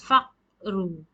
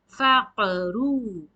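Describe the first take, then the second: First: The q is stopped flat without a bounce. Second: The q is released with an echoing bounce. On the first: The speaker calls it wrong. "You can't pronounce as faqru" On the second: The speaker calls it right. "You have to shake"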